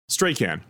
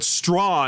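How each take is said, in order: First: The middle consonant of the name is sounded. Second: The middle consonant of the name is silent. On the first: The speaker calls it wrong. "I was saying Strachan or whatever I was saying on the show" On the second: The speaker calls it right. "Strahan, I guess, is the right pronunciation"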